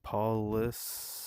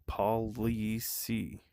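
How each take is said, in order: First: It is said fast, as one word. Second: It is said slowly, as two words.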